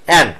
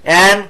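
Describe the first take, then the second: Both takes have the same delivery.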